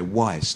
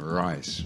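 First: The word begins with a W sound. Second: The word begins with an R sound. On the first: This is how Cantonese speakers say it. "Cantonese speakers say wise, not lice" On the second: This is the standard English word. "Wise instead of rice"

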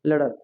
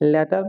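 First: The middle consonant is a soft d-like sound. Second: The middle consonant is a hard t sound. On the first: The speaker calls it right. "ঠি এর উচ্চারণ ড sound হয়" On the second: The speaker calls it wrong. "Not লেটার"

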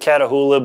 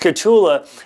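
First: The name is said with four syllables. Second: The name is said with three syllables. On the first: The speaker calls it wrong. "I always pronounce it Catahoula" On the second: The speaker calls it right. "but it's Catula"

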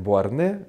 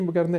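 First: The name is said without a g sound. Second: The name is said with a g sound. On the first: This is the original French pronunciation. "правильное произношение Буарне" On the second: This is the traditional Russian rendering. "но в нашей традиции Евгений Богарне"

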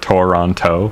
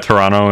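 First: The word is said with three syllables. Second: The word is said with two syllables. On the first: The speaker is not from near the city. "instead of three" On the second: The speaker is from near the city. "say Toronto with two syllables instead of three"

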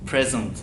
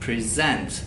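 First: The stress is on the first syllable. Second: The stress is on the second syllable. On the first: It means a gift. "Noun'da pre kısmında vurgu var" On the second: It means to offer. "Verb'de ise sent kısmında, son kısmında vurgu var"

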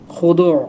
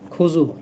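First: The second consonant is pronounced as a 'd' sound. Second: The second consonant is pronounced as a 'j' sound. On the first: The speaker calls it right. "আসলে শব্দটা কি, খুশু খুদু" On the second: The speaker calls it wrong. "দদের উচ্চারণ আমরা কি করি, জ করি"

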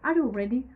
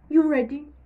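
First: The word 'are' is said at the start. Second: The word 'are' is dropped from the start. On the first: "Are you ready? You cut this word" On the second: "It's better if you want to speak faster"

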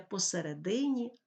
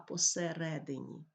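First: The stress follows the Russian stress pattern. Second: The stress follows the Ukrainian stress pattern. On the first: The speaker calls it wrong. "І не" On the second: The speaker calls it right. "а"

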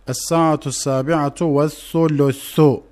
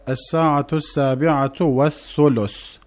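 First: The last word ends with a final vowel. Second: The last word ends on a bare consonant. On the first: This is not how it is said in everyday speech. The speaker calls it wrong. "konuşma dilinde ... denmez" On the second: This is how it is said in everyday speech. The speaker calls it right. "dammesi vurgulanmaz ve ... denir"

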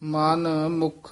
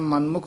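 First: The two parts are said separately, with a break. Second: The two parts run together as one word. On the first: The speaker calls it right. "ਇਹ ਵੱਖਰਾ ਪਾਠ ਕਰਨਾ, ... ਇਸੇ ਤਰ੍ਹਾਂ ਹੀ ਉਚਾਰਨ ਕਰਨਾ" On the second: The speaker calls it wrong. "ਮਨਮੁਖ ਨਹੀਂ ਕਹਿਣਾ"

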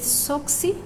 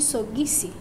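First: The consonant is a voiceless k. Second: The consonant is a voiced g. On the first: This is the Kiswahili source form. "ka to ga" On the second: This is the adapted form used in the language. "ka to ga"

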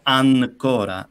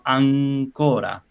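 First: The n is made with the tongue tip. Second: The n is made at the back of mouth. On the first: The speaker calls it wrong. "ma non si pronuncia N, non diciamo ancora" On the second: The speaker calls it right. "diciamo ancora"

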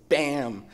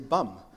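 First: The vowel is open, as in 'cat'. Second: The vowel is central, as in 'cup'. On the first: The speaker calls it right. "my wonderful American colleagues were able to pronounce it really cool" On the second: The speaker calls it wrong. "I just want to say bum"

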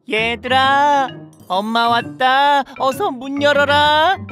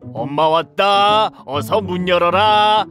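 First: It is said in a soft, motherly voice. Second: It is said in a gruff, unmotherly voice.

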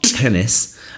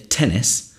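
First: The first consonant is released with a forceful burst. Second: The first consonant is released quietly and gently. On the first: The speaker calls it wrong. "it's not tennis" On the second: The speaker calls it right. "if I say tennis"

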